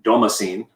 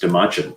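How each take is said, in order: First: The last syllable does not sound like chin. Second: The last syllable sounds like chin. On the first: The speaker calls it wrong. "That's probably the most common" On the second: The speaker calls it right. "like the chin on your face"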